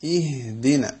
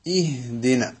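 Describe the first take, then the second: First: The h is a soft, simple breath. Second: The h is a soft, simple breath.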